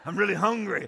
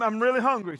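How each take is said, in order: First: It is said in a deep growling voice. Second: It is said in a sweet child's voice.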